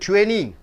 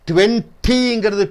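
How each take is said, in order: First: The t after the n is dropped. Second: The t after the n is clearly pronounced.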